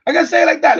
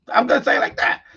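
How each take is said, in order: First: Much louder and higher, declaring it; loud, high, firm declaration; emphatic loud. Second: Laughing through the words; amused, breathy laughing aside. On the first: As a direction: belt it out defiantly. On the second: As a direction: giggle it out, barely holding it together. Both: Real, not acted.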